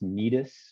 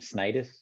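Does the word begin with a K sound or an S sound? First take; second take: K sound; S sound. First: The word begins with a K sound. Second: The word begins with an S sound. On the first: "pronounced Cnidus, like what's on your leg, knee" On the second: "the audio Bible for the N I V pronounced it um, Snidus"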